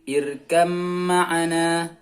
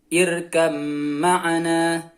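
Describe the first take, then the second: No difference in how they are said.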